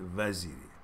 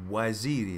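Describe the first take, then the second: First: The name begins with a V sound. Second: The name begins with a W sound. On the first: The speaker calls it wrong. "not Vaziri" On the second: The speaker calls it right. "you did it with W"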